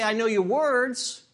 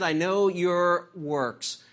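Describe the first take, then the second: First: "words" stressed as the wrong quote, raised and louder; "words" punched up, set against "works"; wrong version, words. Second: Slow, deliberate, "works" landed firmly; slow it down and drive home "works"; "works" said slowly and firmly, the correct reading; stress on works. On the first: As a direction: hit "words" as the mistaken version. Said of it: "Jesus didn't say". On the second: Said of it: "He said". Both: Shown as a demonstration.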